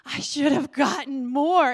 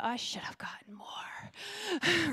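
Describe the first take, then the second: First: Louder, firm restated regret; louder exclamation. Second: Slow, breathy whispered regret; whispered thought. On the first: To the congregation, repeating her thought, louder and firm. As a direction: say it out loud this time, with feeling. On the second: To the congregation, recalling her thought, slowly whispering. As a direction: let the wish slip out under your breath. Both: Retold or imitated. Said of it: "and I thought".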